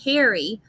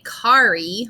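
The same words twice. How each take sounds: First: The first vowel does not sound like 'car'. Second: The first vowel sounds like the word 'car'. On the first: The speaker calls it right. "we say carry" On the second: The speaker calls it wrong. "we don't say carry"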